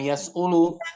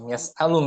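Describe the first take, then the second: First: The middle vowel after the s is u. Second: The middle vowel after the s is a. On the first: The speaker calls it wrong. "Atau yas'ulu mesti bab ketiga yas'alu" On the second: The speaker calls it right. "yas'alu nggak bisa yas'ilu"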